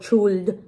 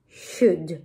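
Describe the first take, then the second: First: The L is sounded before the D. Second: The L is silent, going straight to D. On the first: The speaker calls it wrong. "No should o should, no" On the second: The speaker calls it right. "Si la L no pronuncia, pasamos a la D"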